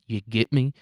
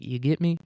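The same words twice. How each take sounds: First: It is said in a slightly aggressive tone. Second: It is said in a laid-back, relaxed tone.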